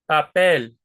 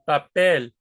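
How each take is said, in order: No difference in how they are said.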